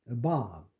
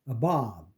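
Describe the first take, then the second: The two takes are said the same way.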